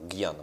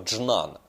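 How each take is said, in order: First: The word begins with a g-like sound. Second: The word begins with a j-like sound. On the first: "вот брахма-гьяна, гьяна" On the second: "Вообще говорят слово джнана"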